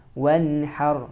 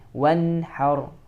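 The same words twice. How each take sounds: No difference in how they are said.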